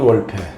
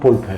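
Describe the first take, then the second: First: The name starts with a w sound. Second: The name starts with a b sound. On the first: "미국식 발음은 월페" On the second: "독일식 발음은 볼페"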